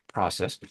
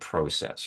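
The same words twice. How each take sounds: First: It is said with an American accent. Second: It is said with a Canadian accent.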